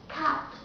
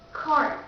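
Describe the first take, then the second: First: It is said in a British accent. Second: It is said in an American accent. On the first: "the second will be British accent" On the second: "The first will be American accent"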